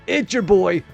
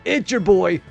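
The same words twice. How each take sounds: First: It is said in an animated podcaster voice. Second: The same.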